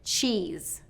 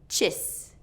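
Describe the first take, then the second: First: The vowel is a long E sound. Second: The vowel is a short I sound. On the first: The speaker calls it right. "what should be a very long vowel pronunciation" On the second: The speaker calls it wrong. "that's just shortening this"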